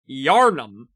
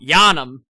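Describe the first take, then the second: First: It is said without a New England accent. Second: It is said in a New England accent. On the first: The speaker calls it right. "the city in Bloodborne is Yarnum" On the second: The speaker calls it wrong. "not Yanum"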